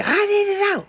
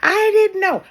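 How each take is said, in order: First: Much higher, a hint of a startled protest; lightly voiced helpless excuse; mock plea. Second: Much higher and louder, insisting; louder mock plea. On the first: Imitating someone after crossing over, a lightly voiced high plea. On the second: Imitating someone after crossing over, a louder mock wail. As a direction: push the excuse harder, half-hearted wail. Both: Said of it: "you gonna sit up and say".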